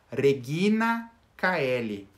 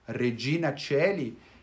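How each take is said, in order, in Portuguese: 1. Coeli começa com um som forte de k. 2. Coeli começa com um som suave de ch.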